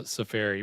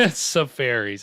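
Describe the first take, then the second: First: Safari said as sə-FAH-ree; preferred pronunciation. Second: Safaris said as sə-FAIR-eez; mocked pronunciation. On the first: Shown as a demonstration. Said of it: "I'm not down with the pronunciation". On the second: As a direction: say safaris with the FAIR vowel, teasing. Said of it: "I'm not down with that pronunciation".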